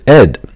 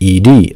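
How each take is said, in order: First: It is said as the single word "ed". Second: It is said as two separate letters. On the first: The speaker calls it wrong. "for years I've pronounced ED as ED" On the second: The speaker calls it right. "the proper pronunciation is in fact ED"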